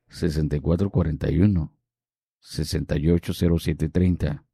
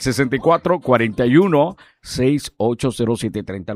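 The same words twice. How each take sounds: First: The number is said at a slow pace. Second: The number is said at a fast pace.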